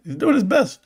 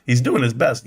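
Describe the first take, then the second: First: Sarcastic higher mock of Adam Aaron. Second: Said in the usual way. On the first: Streamer mocking the CEO's excuse, sarcastic higher pitch. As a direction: sneer his excuse back, pitched up. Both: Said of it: "Kinda like Adam Aaron".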